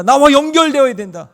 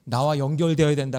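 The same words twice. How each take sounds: First: 나와 연결되어야 된다 cried out high and loud, 나와 hit hardest; crying out. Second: Said in the usual way. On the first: Shown as a demonstration. Preacher repeats God's call to the congregation, loud high cry. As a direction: proclaim it like an urgent plea from God. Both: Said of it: "그것을 계속해서 외치고 있는 거예요".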